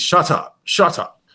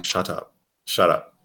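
First: Put-on London rapper accent. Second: Said in the usual way. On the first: Showing how the rapper repeats his hook, imitated London accent. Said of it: "he repeats". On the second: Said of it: "It's, it's "Shut Up".

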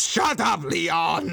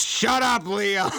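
First: Higher, louder shut up; a tyrant turning on his aide; mock furious snap. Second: Higher, louder shut up; a dictator silencing his adviser; mock angry yell. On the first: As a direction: bark it at the underling. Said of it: "spins on him and just goes". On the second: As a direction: cut him off mid sentence. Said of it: "And then he goes".

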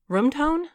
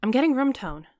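First: Higher, disbelieving rise on "tone"; incredulous repeat. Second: Said in the usual way. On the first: A narrator's reading. Damon repeats Carrie's words back at her, incredulous. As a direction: echo "Room tone?" with a sharp rise of disbelief. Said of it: "Damon repeated". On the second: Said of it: "Carrie held up her recorder".

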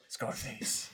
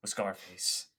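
First: Breathy whispered repeat of the name; hushed repeat. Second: Said in the usual way. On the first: Real, not acted. Whispering his regretted costume to friend. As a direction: whisper the name again, rueful.

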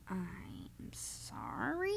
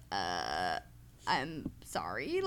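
First: Mock sympathy. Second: Low, slow awkward apology; awkward low sorry. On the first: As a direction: say sorry with faked sympathy. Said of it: "just like that". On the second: Retold or imitated. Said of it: "I was like".

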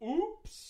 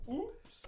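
First: High sing-song fake oops. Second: High soft sing-song oops; fake oops. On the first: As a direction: pretend innocent accident. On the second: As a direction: innocent little oops. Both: Mock innocent oops.

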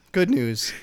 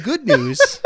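First: Said in the usual way. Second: Rising good news. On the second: Shown as a demonstration.

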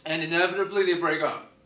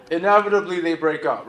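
First: Said in the usual way. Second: Inevitably they break up said through a laugh; amused retelling with a laugh. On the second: Shown as a demonstration. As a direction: chuckle through the repeat. Repeats the line for the laugh.

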